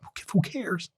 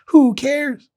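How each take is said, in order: First: Much softer, muttered to himself; a soft throwaway first try; quiet. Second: Much higher, punchy repeat; emphatic. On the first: Host musing to listeners, much softer. Repeats rhetorical line. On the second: Host dismissing the hierarchy to listeners, much higher and emphatic. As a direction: fling it out dismissively. Repeats rhetorical line louder. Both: Real, not acted.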